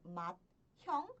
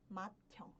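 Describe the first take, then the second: First: The t and h are pronounced as separate sounds. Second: The t and h merge into one aspirated t. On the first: The speaker calls it wrong. "Ao invés de pronunciar como mathyong" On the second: The speaker calls it right. "eu pronuncio matyong"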